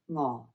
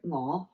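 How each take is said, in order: First: The pitch stays low and level. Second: The pitch starts low and rises. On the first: It means hungry. "you've got a low tone" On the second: It means I. "your mo"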